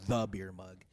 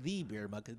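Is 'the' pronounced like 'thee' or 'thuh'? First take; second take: thuh; thee. First: The word 'the' sounds like 'thuh'. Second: The word 'the' sounds like 'thee'. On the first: It sounds like a villain's name. The speaker calls it right. "I vote for changing it to the beer mug" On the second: It sounds a little pretentious. The speaker calls it wrong. "sounds a little pretentious"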